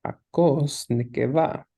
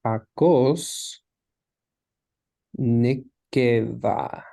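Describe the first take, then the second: First: Said in the usual way. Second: Hakos, long pause, then a drawn-out Nekeva; slow, spaced-out reading of Hakos ... Nekeva; word by word. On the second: Shown as a demonstration. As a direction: sound out Hakos Nekeva very slowly. Teacher sounds out Hebrew phrase.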